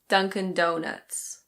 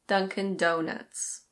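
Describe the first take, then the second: Both takes have the same delivery.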